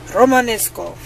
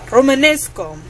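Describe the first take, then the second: First: It is said in a put-on Russian accent. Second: It is said in a put-on Russian accent.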